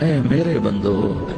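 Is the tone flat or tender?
tender. It is said in a warm, tender tone. The speaker calls it right.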